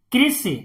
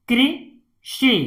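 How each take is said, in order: First: Said in the usual way. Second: "कृषि" in two separated parts; syllable by syllable. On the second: Shown as a demonstration. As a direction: split "कृषि" with a pause inside. Teacher sounds out, then blends. ("कृषि" को तोड़कर पढ़ना)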